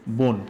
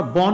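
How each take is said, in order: First: বন said as bon, rounded o; বন with the vowel like o; correct reading. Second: বন with a plain open অ, bɔn; বন read the wrong way, open অ. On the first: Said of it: "আমরা উচ্চারণ করি কি?". (বন সঠিক উচ্চারণ, বোন) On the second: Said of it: "আমরা বন উচ্চারণ করি না". (বন ভুল উচ্চারণ, খোলা অ দিয়ে) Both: Shown as a demonstration.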